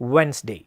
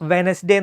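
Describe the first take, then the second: First: It begins with rounded lips, like 'w'. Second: It begins with lip touching teeth, like 'v'. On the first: The speaker calls it right. "Correct pronunciation വരണമെങ്കിൽ ഇങ്ങനെ തുടങ്ങും" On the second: The speaker calls it wrong. "ചുണ്ടും പല്ലും തട്ടിയിട്ടാണ് നമ്മൾ ഡബ്ല്യു pronounce ചെയ്യുന്നത്"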